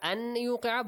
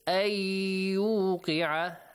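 First: The n sound is pronounced separately before y. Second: The n sound is merged into a doubled y.

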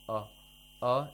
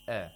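First: The vowel is pronounced heavy and thick. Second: The vowel is pronounced light and thin. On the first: The speaker calls it wrong. "a is incorrect" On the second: The speaker calls it right. "should be pronounced with tarqiq"

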